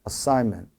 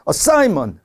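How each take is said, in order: First: The stressed syllable is tapped lightly and briefly. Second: The stressed syllable is hit hard and forcefully. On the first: The speaker calls it right. "그냥 가볍게만 툭 쳐준다" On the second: The speaker calls it wrong. "assignment 이렇게 하시는 분들 계세요. 근데 그렇게 되면 안 되죠. 너무 좀 aggressive 하잖아요"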